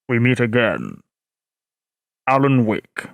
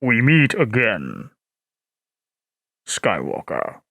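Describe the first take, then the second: First: Very low, ominous bass; James Earl Jones. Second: Very low, ominous bass; Darth Vader. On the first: Streamer playing villain to Alan Wake, very deep. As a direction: threaten the hero in a dark rumble. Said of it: "I will do my best to do James Earl Jones". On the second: Streamer voicing Vader confronting Skywalker, very deep. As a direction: greet the enemy like a dark lord. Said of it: "I sound like Vader". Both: Shown as a demonstration.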